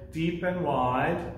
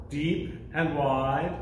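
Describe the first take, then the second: No difference in how they are said.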